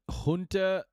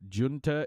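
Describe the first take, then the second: First: The word is said closer to Spanish sounds. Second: The word is said with English-style sounds. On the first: "closer to the original Spanish sound and is very common in American English" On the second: "also widely accepted, especially in British English"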